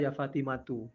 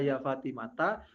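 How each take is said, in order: First: The name ends with a 'u' vowel. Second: The name ends with an 'a' vowel. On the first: "boleh dibaca dhamma" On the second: "Yang populer itu dibaca fathah"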